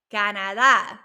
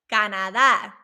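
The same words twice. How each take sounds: The two takes are said the same way.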